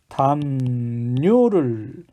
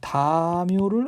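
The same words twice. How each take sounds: First: The second syllable begins with an n sound. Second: The second syllable begins with a y sound. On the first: The speaker calls it right. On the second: The speaker calls it wrong.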